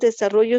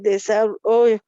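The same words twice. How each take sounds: First: Every sound of the word is pronounced. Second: One sound of the word is left out. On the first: The speaker calls it right. "no pronunciamos desarrollo" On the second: The speaker calls it wrong. "sino solamente desarrollo. Y ya nos comimos una palabra"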